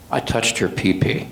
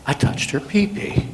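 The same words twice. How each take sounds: First: Said in the usual way. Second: Whispered, higher, ashamed repeat. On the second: Retold or imitated. Offender repeating his confession to the officer, whispered. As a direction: breathe it out so only he hears.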